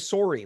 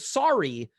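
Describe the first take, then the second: First: It is said with a Canadian Ontario accent. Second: It is said with a Standard American accent.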